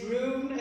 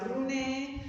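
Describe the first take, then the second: First: The name is said the English way. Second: The name is said the Spanish way.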